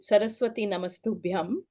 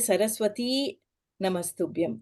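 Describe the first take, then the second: First: The final i of Saraswati is short. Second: The final i of Saraswati is long. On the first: The goddess is being called on directly. The speaker calls it right. "we put uh, Alpa Prana I, Saraswati. That's the reason I always say with" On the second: The name is only stated, not called. The speaker calls it wrong. "we don't say"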